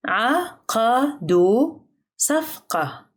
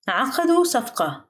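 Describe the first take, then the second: First: Very slow "عقدوا صفقة", each syllable set apart; drawn-out teaching pace on "عقدوا صفقة". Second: Said in the usual way. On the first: Shown as a demonstration. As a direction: sound out "عقدوا صفقة" for learners, pausing between syllables. Teacher repeats sentence slowly by syllable.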